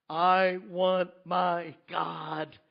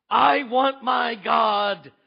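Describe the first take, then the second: First: Slow aching plea. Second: I want my God, shouted slowly and much louder; anguished shout. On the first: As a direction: hold back, aching. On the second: Habakkuk crying out to God in pain, shouting. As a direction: cry it out to heaven. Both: Acted. Build to cried plea.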